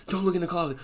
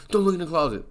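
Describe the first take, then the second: First: Scared warning. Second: Frightened plea. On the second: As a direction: warn the cop in a panic. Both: Retold or imitated. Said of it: "Allie's like".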